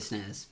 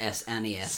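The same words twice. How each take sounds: First: The name is said as a single word. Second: The name is spelled out letter by letter. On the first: The speaker calls it right. "I would say SNES" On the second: The speaker calls it wrong. "not S-N-E-S"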